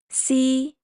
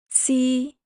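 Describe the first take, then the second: The two takes are said the same way.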